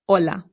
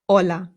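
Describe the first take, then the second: First: The word starts directly with the vowel sound. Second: The same.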